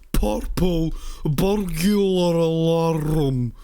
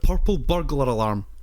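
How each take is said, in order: First: The phrase is slurred and mangled. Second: The phrase is pronounced clearly and easily. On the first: A drunk person is failing to say it. The speaker calls it wrong. "him going, purple burglar alarm, like a fucking moron" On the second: The phrase is easy for a Scottish speaker. The speaker calls it right. "hear me tell you that purple burglar alarm is perfectly easy to say"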